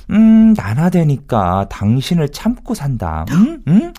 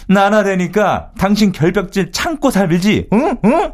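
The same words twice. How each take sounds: First: Slow, drawn-out wifely put-down; acted wife. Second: Slow, high-pitched mocking comeback; acted inner retort. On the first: Husband quoting wife who puts up with him, slow mimicry. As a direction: lightly mimic a long-suffering wife. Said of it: "그러자 아내가 하는 말이". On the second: Husband silently answering wife's remark, high mocking retort. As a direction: throw the spouse's line back emphatically. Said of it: "제가 속마음으로 이랬죠".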